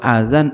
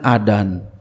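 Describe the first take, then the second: First: The middle consonant is a z sound. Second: The middle consonant is a d sound. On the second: "masih dal aja nih"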